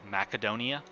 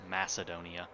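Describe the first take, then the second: First: "Macedonia" said mack-uh-DOH-nee-uh; hard-c pronunciation. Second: "Macedonia" said mass-uh-DOH-nee-uh; soft-c pronunciation. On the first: Streamer showing the Total War game's pronunciation, hard c. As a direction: say "Macedonia" with a K sound for the c. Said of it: "they pronounce it". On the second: Streamer showing another pronunciation he has heard, soft c. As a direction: say "Macedonia" with an S sound for the c. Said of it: "also heard it pronounced". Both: Shown as a demonstration.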